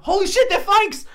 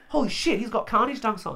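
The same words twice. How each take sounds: First: Much higher and louder, "Holy shit" blurted at full volume; shocked yell. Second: Higher, startled "Holy shit" as he first spots the shoes; first double take, still half to himself; surprised. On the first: Realising the sneakers are fakes, loud shocked yell. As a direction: explode with outrage at the discovery. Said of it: "I, like, yelled out to him". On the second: Seeing his own shoe design on the subway, startled. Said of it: "and I'm like". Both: Retold or imitated.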